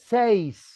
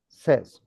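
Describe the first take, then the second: First: The vowel is a long 'ay' sound, like 'sace'. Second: The vowel is a short 'e' sound, like 'sez'. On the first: The speaker calls it wrong. "Don't say seis" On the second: The speaker calls it right. "The right pronunciation says"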